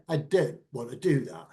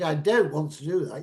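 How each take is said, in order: First: DON'T and WANT said with the T's dropped; posh lisping politician's "don't want", T's left off. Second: Said in the usual way. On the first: Shown as a demonstration. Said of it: "you drop your T's and everything else". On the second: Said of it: "instead of saying".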